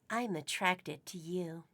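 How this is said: It is said in a put-on sexy voice.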